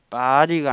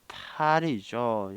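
First: The first consonant is tense and unaspirated. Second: The first consonant is aspirated with a breathy release. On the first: The speaker calls it wrong. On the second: The speaker calls it right.

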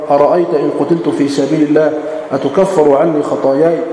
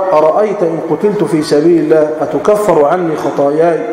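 No difference in how they are said.

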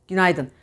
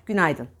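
Both takes have the same delivery.

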